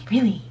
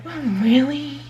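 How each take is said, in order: First: Whispered skeptical really; sarcastic whisper. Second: Higher, skeptical drawn-out really; sarcastic. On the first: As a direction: breathe it with disbelief. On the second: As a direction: doubt them with sarcasm. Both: Acted. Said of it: "sarcastic characters".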